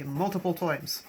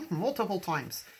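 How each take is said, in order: First: Said in the usual way. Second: Irish accent. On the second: Shown as a demonstration. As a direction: toss it off with a light Irish lilt. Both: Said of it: "I don't know where the accent just came from".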